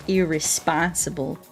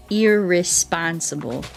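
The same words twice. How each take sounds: The two takes are said the same way.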